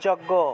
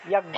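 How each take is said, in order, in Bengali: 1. এটি 'j' উচ্চারণে শুরু হয়, যেমন 'joggo'। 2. এটি 'ya' উচ্চারণে শুরু হয়, যেমন 'yajnya'। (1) "বাংলায় বললে যজ্ঞ" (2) "সংস্কৃত উচ্চারণ হবে ইয়াজ্ঞা"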